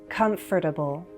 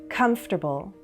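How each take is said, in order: No difference in how they are said.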